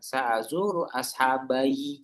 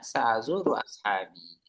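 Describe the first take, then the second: First: The last word ends with an extra 'yi' syllable. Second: The last word ends without an extra syllable. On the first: The speaker calls it wrong. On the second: The speaker calls it right.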